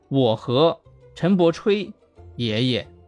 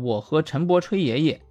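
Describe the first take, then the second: First: The phrase breaks after chui, before grandpa. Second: The phrase breaks after bo, before chui. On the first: Chen Bochui is the grandpa being written about. The speaker calls it right. "原来是" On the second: Someone and Chen Bo are bragging to grandpa. The speaker calls it wrong. "你吹什么不好，你去吹爷爷，并且还和陈伯一起吹"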